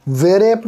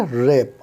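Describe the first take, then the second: First: "वे रैप" with an added "ve" before R; W wrongly sounded. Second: "रैप" starting straight on R; silent W. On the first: Teacher shows what not to read, "वे रैप" with W sounded. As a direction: say "वे रैप", voicing the W as its own syllable. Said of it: "नहीं पढ़ेंगे डब्ल्यू की आवाज़ mix करके". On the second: Teacher models the correct reading, "रैप" with silent W. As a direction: say "रैप" as one syllable, no w before r. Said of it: "इसे पढ़ेंगे". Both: Shown as a demonstration.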